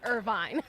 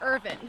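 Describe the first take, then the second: First: The name ends with a long 'vine' sound. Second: The name ends with a short 'vin' sound. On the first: This is how the place name is said. The speaker calls it wrong. "not Irvine" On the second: This is how the family says the name. The speaker calls it right. "it sounds like Irvin"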